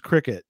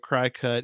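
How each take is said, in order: First: The first syllable sounds like 'crick'. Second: The first syllable sounds like 'cry'. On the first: The speaker calls it right. "It's probably pronounced Cricut" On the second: The speaker calls it wrong. "I'm trying to say it CryCut, even though that's not the proper pronunciation"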